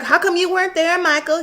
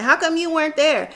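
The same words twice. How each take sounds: First: Sarah impression. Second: Lightly raised motherly question; a hint of Sarah asking again; Sarah impression. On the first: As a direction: voice Sarah asking her son.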